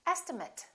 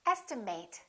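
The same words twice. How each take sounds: First: The final syllable is a reduced 'it' sound. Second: The final syllable is a full 'eight' sound. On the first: It is used as a noun. "estimate, if it's a noun" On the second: It is used as a verb. "This can be a verb. In that case, it's pronounced as estimate"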